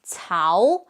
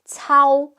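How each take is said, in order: First: The pitch rises through the syllable. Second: The pitch stays level through the syllable. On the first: "The first one is rising" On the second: "the second one is flat"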